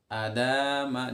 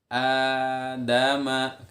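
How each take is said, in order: First: The first vowel is not drawn out. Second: The first vowel is drawn out long. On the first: The speaker calls it wrong. "Jangan sampai adama, jangan sampai seperti itu" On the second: The speaker calls it right. "tempo suara kita memanjang itu di A-nya. Adama, kayak gitu"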